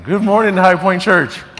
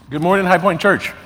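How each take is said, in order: First: It is said with more energy and enthusiasm. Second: It is said in a calm, plain way.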